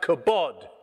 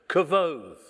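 First: The middle consonant is a b sound. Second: The middle consonant is a v sound. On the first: "It looks like kabod, kabod in English" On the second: "But the Jews would say, if they were saying that in their language, kavod"

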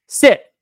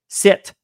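First: It is said loudly and sharply. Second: It is said softly and plainly.

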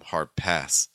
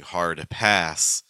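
First: The D in hard is held before pass. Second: The D in hard is clearly released. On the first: The speaker calls it right. "we're going to typically hold it" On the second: The speaker calls it wrong. "instead of saying"

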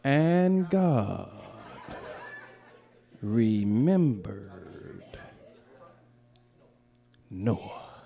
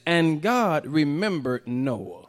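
First: It is said slowly. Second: It is said fast.

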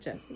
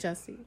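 First: The first vowel is an 'eh' sound, 'Jess'. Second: The first vowel is an 'uh' sound, 'Juss'. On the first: The speaker calls it wrong. "not Jesse" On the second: The speaker calls it right. "It's J-U"

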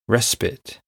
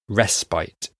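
First: It is said the American way. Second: It is said the British way, like 'rest bite'. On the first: "In America, they say respite" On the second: "In Britain, we say respite. Almost broken into two words"

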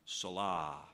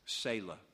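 First: The word is pronounced the way a child would. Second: The word is pronounced the usual adult way. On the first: "here's the way I pronounced it when I was about seven" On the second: "But anyway"

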